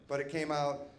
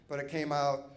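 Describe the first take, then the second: No difference in how they are said.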